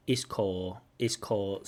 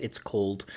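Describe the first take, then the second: First: Called with the final L D dropped. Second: Called with a clear L and D; clear L D ending. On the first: Teacher imitates the student's called, ending dropped. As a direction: swallow the end of called. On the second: Teacher models called with the full ending. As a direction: finish called with L and D. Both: Shown as a demonstration. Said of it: "that L D at the end".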